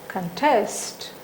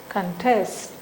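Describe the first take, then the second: The two takes are said the same way.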